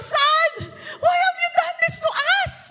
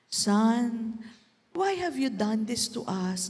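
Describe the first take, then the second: First: It is said in an anxious, upset tone. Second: It is said in a calm tone.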